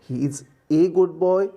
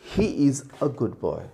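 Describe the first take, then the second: First: The word a is a full ay sound. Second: The word a is a short, weak uh. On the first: The speaker calls it wrong. "नहीं, गलत हो जाएगा" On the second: The speaker calls it right. "अ कहते हैं"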